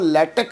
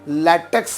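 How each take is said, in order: First: The word ends without a final s sound. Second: The word ends with a final s sound. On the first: "कुछ लोग केवल उसको लैटेक भी pronounce करते हैं" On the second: "लैटेक्स भी pronounce करते हैं कुछ लोग"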